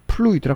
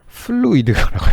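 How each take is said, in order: First: The word begins with a P sound. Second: The word begins with an F sound. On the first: The speaker calls it wrong. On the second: The speaker calls it right.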